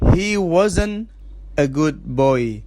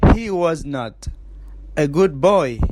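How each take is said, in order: First: Was and not are joined as wasn't. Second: Was and not are said as two full words.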